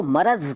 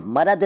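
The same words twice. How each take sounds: First: Said in the usual way. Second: मरद ending on d. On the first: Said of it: "मरद नहीं कहते". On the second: Shown as a demonstration. Teacher showing the rejected form, मरद with d for z. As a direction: close मरद with d, not z. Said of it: "नहीं कहते".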